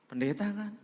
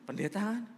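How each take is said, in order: First: High, louder, pressing for an answer; eager question. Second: Pressing eagerly for a discount; eager question. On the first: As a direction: sound hopeful about a discount. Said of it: "kalau pendeta ada diskon spesial". (pertanyaan penuh harap, nada tinggi) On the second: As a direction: pitch rising high, louder at the end. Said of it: "Saya bilang gini". (bertanya penuh semangat, nada naik tinggi) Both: Retold or imitated.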